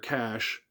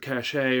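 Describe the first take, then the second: First: The word sounds like 'cash', with one syllable. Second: The word sounds like 'cachet', with two syllables. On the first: "but I'm pretty sure it's cash" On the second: "I say it cachet because that's how Google uh, voice search searches for it"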